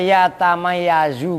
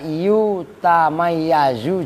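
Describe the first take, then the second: First: The first syllable has the vowel 'a'. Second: The first syllable has the vowel 'u'. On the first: The verb is read in the active voice. "dibaca ya tamayyazu boleh" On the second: The verb is read in the passive voice. "dibaca yu tamayyazu juga boleh"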